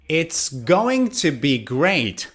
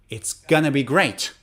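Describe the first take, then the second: First: Going to is said in full. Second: Going to is reduced to gonna. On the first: "instead of going to" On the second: "native speakers say gonna"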